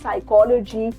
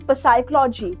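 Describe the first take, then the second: First: The starting P sound is silent. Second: The starting P sound is pronounced. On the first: The speaker calls it right. "We call it" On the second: The speaker calls it wrong. "Do we call it पसाइकोलॉजी? No"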